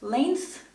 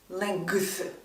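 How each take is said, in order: First: The G sound is not heard. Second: A G sound is heard. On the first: The speaker calls it right. "the G in length is silent. It's pronounced length" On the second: The speaker calls it wrong. "not length"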